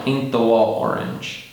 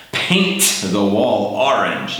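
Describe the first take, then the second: First: Said in the usual way. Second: "paint the wall orange" slow, hard T on "paint"; overpronounced T. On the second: Shown as a demonstration. Teacher showing learners the wrong careful way. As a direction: hit the T too hard on purpose. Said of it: "I don't say, "Paint".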